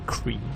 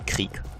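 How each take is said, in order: First: The name is pronounced in an English way. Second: The name is pronounced in a German way. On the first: The speaker calls it wrong. "I guess the English pronunciation would be Krieg" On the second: The speaker calls it right. "but it's actually Krieg"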